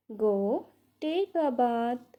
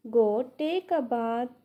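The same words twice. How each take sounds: First: "Go", a clear break, then "take a bath"; pause after "Go". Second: Said in the usual way. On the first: Shown as a demonstration. Teacher repeats for English learners, pausing after "Go".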